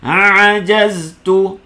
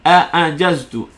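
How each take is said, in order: First: Both opening sounds are the deep throat ain. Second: Both opening sounds are glottal stops. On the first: "Kita akan baca dua-dua jadi ain" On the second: "Dua-dua bunyi hamzah. Pun salah"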